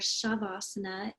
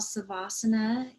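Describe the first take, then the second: First: The word begins with an sh sound. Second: The word begins with a plain s sound. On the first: This is the southern Indian form of the name. "or Shavasana in southern India" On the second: This is the northern Indian form of the name. "what we call Savasana in northern India"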